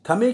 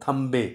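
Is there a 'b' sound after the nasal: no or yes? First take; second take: no; yes. First: It is said with a plain 'm' sound. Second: It is said with an 'mb' sound. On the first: "थमे की जगह" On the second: "यानी नून बे की आवाज़ से जो मुँह की साउंड आती है"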